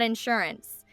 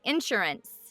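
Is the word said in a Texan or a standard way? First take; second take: standard; Texan. First: It is said the standard way. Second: It is said the Texan way.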